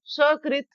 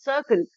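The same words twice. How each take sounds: First: सकृत as sha-krit; higher, sh opening सकृत; SH replacing S. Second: सकृत as sa-krit; dental S. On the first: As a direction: say सकृत with श, pitched up. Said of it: "के स्थान पर सकृत". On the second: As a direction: start सकृत on a plain s. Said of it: "सकृत के स्थान पर". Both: Shown as a demonstration.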